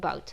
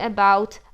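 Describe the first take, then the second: First: The word is shortened, first syllable dropped. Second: The word is said in full, both syllables clear. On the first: "jak nie mamy czasu powiedzieć about, to mówimy about" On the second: "i tutaj oczywiście będzie about"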